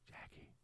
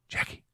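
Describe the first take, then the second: First: The name is said at its quietest. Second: The name is said somewhat more quietly. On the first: "Say it quieter each time" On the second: "Say it quieter each time"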